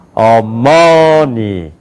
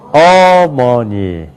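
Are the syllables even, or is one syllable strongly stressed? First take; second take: stressed; stressed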